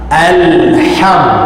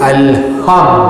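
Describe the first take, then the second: First: The h sound is breathy, with audible air. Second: The h sound is plain, without audible air. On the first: The speaker calls it right. "ha pedas ... ada bunyi angin" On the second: The speaker calls it wrong. "tak boleh sebut al-ham"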